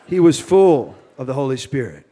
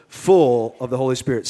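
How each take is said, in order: First: Light Cajun accent. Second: Said in the usual way. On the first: Shown as a demonstration. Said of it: "I'm trying to shake my Cajun accent". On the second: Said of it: "Say full".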